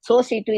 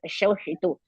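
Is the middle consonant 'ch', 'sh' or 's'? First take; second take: s; sh. First: Both consonants are plain 's' sounds. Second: The middle consonant is an 'sh' sound. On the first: "is also wrong" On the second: "not Shoshitu"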